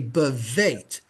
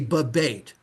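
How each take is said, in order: First: The second consonant is pronounced as v. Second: The second consonant is pronounced as b. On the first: The speaker calls it right. "you would say bevate" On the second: The speaker calls it wrong. "You wouldn't say bebate"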